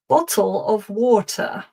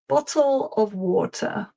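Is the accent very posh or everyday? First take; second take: posh; posh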